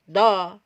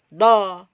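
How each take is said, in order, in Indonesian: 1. Bunyinya tebal, dibuat di belakang. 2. Bunyinya tebal, dibuat di belakang.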